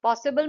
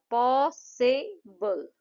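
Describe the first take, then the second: First: Said in the usual way. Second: पॉसिबल very slow, पॉ, सि, बल; three separated beats on पॉसिबल, falling at the end; syllable by syllable. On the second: Shown as a demonstration. Teacher shows three claps in पॉसिबल, syllable by syllable. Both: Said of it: "पॉसिबल में तीन बार".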